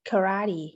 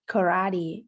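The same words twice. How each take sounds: First: It is said with an American accent. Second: It is said with an American accent.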